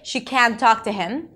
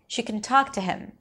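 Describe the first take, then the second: First: Can is said fully with a clear vowel. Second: Can is reduced to a weak kun. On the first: The speaker calls it wrong. "So I don't say she can talk to him... It's too long" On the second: The speaker calls it right. "The word can is usually reduced to kun"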